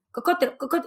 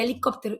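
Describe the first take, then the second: First: Put-on "Cocótero, cocótero" as a small child mangling helicóptero, stress on CÓ; mother mimicking her toddler's "Cocótero"; toddler mispronunciation. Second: Said in the usual way. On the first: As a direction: imitate the kid saying "Cocótero" for helicopter. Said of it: "Yo no lo entendía". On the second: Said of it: "me decía".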